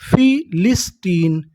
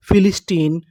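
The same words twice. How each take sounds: First: फिलिस्टीन slowly, split as फि, लिस, टीन; slow teaching breakdown of फिलिस्टीन; syllable by syllable. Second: Said in the usual way. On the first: Shown as a demonstration. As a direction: sound out फिलिस्टीन in three separate beats. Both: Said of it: "तो meaning क्या बनी".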